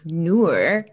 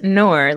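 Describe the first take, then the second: First: The vowel does not sound like 'nor'. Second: The vowel sounds like the word 'nor'. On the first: The speaker calls it right. "It is Noor" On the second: The speaker calls it wrong. "It's not Noor, like neither nor"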